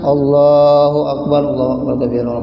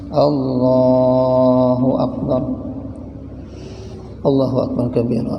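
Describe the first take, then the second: First: Both phrases run on together without any pause. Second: There is a pause after the first Allahu Akbar. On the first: The speaker calls it wrong. "itu itu kada saktah ngarannya tuh. Nah, betarus ngarannya" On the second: The speaker calls it right. "Berhenti dulu"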